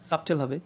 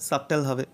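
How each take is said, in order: The two takes are said the same way.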